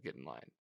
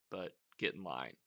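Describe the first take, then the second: First: Much lower and softer, quiet threat; low, hushed mock Homelander warning; menacing Homelander. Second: Said in the usual way. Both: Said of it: "He's like".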